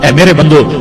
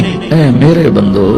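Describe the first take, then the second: First: It is said in a plain, unaffectionate tone. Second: It is said in a tender, loving tone. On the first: It is a neutral call without warmth. The speaker calls it wrong. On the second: It is a loving call, like a mother to her child. The speaker calls it right.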